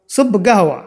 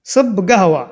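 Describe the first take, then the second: No difference in how they are said.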